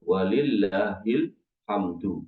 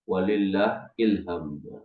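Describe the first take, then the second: First: The phrase ends clearly with 'hamdu'. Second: The phrase ends sounding like 'ilham'. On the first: The speaker calls it right. "yang selalu saya tekankan di sini" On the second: The speaker calls it wrong. "bukan walillah ilham ... Ini salah"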